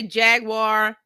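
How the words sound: It is pronounced with an American accent. "Americans say Jaguar"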